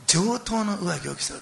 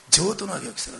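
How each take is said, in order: First: Slow, 上等 pushed high and firm; stress on 上等. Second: 上等 stressed high with a falling end. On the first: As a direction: stretch out 上等 as a father's order. (「上等」をゆっくり強調して命じる) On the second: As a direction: repeat the order, hitting 上等. (「上等」を強調して言い直す) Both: Retold or imitated. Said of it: "上等ってわだわだ言ってるんですよ".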